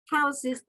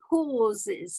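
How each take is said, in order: First: The first vowel sounds like 'ow' in houses. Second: The first vowel sounds like 'aw' in saw. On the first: The speaker calls it wrong. "is not houses" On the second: The speaker calls it right. "but pauses"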